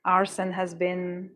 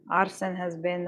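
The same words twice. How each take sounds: First: Arsen has been said slowly, word by word; hesitant slow take; slow, drawn out. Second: Said in the usual way. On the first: Real, not acted.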